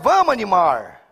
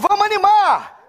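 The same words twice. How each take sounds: First: It is said flatly, with low energy. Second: It is said with lively, high energy.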